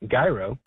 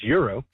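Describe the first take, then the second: First: The word begins with a j sound. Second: The word begins with a y sound. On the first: This is how some friends say it. "when I speak to my Lebanese friends, they say gyro" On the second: This is how it is said in Greek. "in Greek it's it's euro"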